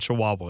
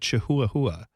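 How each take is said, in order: First: The word is said the usual way. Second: The word is sounded out as it is spelled.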